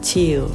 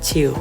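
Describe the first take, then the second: First: The vowel is a long ee sound. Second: The vowel is a short i sound. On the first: The speaker calls it wrong. "ครูจะไม่พูดว่า" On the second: The speaker calls it right. "ครูจะพูดว่า ... ไม่มีเสียงสระอีแต่จะมีเสียงสระอิ"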